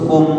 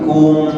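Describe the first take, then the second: First: The syllable is cut off abruptly. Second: The syllable ends with a little flowing sound. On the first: The speaker calls it wrong. "jangan langsung diputus" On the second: The speaker calls it right. "di diberikan sedikit aliran"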